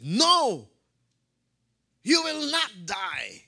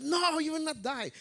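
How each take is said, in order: First: High, loud, drawn-out refusal; fervent protest. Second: Very high acted outcry, without extra volume; fervent protest. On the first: Acted. Preacher voices Peter protesting to Jesus, loud and fervent. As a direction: cry it out slowly with acted fervor. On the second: Preacher repeats Peter's protest to Jesus, high and fervent. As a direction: protest in a quick, high-pitched voice. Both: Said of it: "in his fervor".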